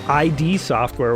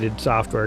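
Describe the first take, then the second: First: The name begins with two separately spoken letters. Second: The name begins with one short spoken word. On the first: The speaker did not know the word 'id'. The speaker calls it wrong. "I always called that I D Software when I was a kid because I didn't know what an id was" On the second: The speaker now knows what 'id' means. The speaker calls it right. "I do call it id Software because that's their name"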